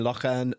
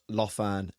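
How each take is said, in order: First: The middle consonant is a throaty ch sound. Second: The middle consonant is an f sound. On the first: The speaker calls it right. "it should have been Lochan" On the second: The speaker calls it wrong. "not Lofan"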